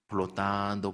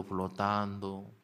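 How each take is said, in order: First: Said in the usual way. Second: "flotando" drawn out slow and softer, like drifting away; slow, soft echo. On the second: Shown as a demonstration. Teacher picturing the basket drifting on the Nile, slow soft echo. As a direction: let "flotando" float off slowly and quietly.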